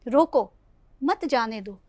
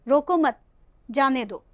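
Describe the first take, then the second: First: There is a pause right after रोको. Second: There is a pause right after मत. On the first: Stop the person; do not let them go. "लिखित रूप में हमें इस अल्प विराम का प्रयोग करना पड़ेगा" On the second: Do not stop the person; let them go. "अगर हम अल्प विराम को यहाँ पे लिखेंगे"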